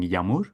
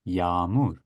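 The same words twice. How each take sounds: First: The first vowel is short. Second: The first vowel is lengthened. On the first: The speaker calls it wrong. "instead of saying" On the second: The speaker calls it right. "it makes the previous vowel a little bit longer"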